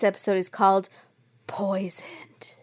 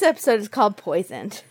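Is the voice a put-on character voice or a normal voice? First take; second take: put-on; normal. First: It is said in a put-on Batman-like voice. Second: It is said in the speaker's normal voice. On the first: "In my head, I sounded like Batman" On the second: "I'm going to just use my normal voice"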